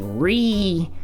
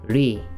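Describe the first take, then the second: First: The r is a bunched English-style r. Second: The r is a quick tongue-tip tap. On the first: The speaker calls it wrong. "I don't want to hear any Ri" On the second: The speaker calls it right. "I want to hear Ri"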